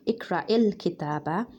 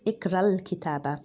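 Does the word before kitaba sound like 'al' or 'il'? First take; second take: il; al. First: The article before kitaba sounds like 'il'. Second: The article before kitaba sounds like 'al'. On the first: The speaker calls it wrong. "it's not going to be" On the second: The speaker calls it right.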